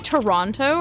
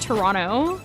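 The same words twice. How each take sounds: First: The second T is clearly pronounced. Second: The second T is dropped and sounds run together. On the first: "Do y'all pronounce the T?" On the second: "mush all your letters together like me"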